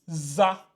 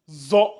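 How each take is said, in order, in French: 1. La syllabe se prononce avec une voyelle a simple. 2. La syllabe se prononce avec une voyelle o plus sombre. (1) "vous risquez de le lire za" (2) "lui c'est zo"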